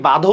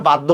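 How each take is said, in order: First: বাধ্য said as "ba-dho", no doubled d; single consonant. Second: বাধ্য said as "bad-dho", d held before dh; doubled consonant. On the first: Teacher asking students how they say it, single-consonant বাধ্য. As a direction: say বাধ্য with one light dh, "badho". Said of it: "আপনি কি বাধ্য উচ্চারণ করেন". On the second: Teacher asking students how they say it, doubled-consonant বাধ্য. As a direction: close the first syllable of বাধ্য on d, "baddho". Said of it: "না বাধ্য উচ্চারণ করেন". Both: Shown as a demonstration.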